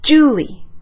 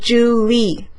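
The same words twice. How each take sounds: First: The stress is on the first syllable. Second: The stress is on the second syllable. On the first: The speaker calls it right. "la primera sílaba lleva el acento" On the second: The speaker calls it wrong. "No se dice Julie"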